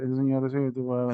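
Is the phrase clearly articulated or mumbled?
mumbled. The words are mumbled through closed teeth. The speaker calls it wrong. "No hablemos así entre dientes"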